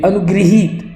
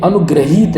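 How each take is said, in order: First: अनुगृहीत with "gri", slowly; correct pronunciation. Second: अनुग्रहीत with "gra" in the middle; wrong pronunciation. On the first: Teacher giving the correct word, अनुगृहीत with clear "gri". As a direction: say अनुगृहीत as "anu-gri-heet", drawn out. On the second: Teacher contrasting the error, अनुग्रहीत with plain "gra". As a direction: say अनुग्रहीत as "anu-gra-heet". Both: Shown as a demonstration. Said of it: "तो ये शुद्ध होगा".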